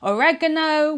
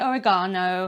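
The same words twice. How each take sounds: First: It is said with a North American pronunciation. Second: It is said with a non-North American pronunciation. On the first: "you guys say oregano" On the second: "we say oregano"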